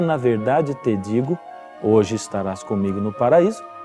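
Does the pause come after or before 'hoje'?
before. The pause comes before the word hoje. The promise is of paradise that very day. "significa o que muitos pensam"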